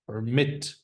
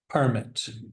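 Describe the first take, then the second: First: The stress is on the second syllable. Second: The stress is on the first syllable. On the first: It is used as a verb. "Second syllable is the verb" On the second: It is used as a noun. "The noun"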